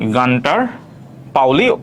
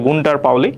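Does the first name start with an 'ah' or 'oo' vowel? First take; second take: ah; oo. First: The first name begins with an 'ah' vowel. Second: The first name begins with an 'oo' vowel. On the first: "answer হচ্ছে গান্টার পাউলি" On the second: "কেউ কেউ উচ্চারণ করে গুন্টার পাউলি"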